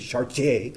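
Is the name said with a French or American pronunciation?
French. It is said with a French pronunciation.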